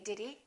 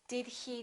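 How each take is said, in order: First: The h in he is dropped. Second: The h in he is clearly pronounced. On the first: "you will hear most Americans just say" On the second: "You might want to say"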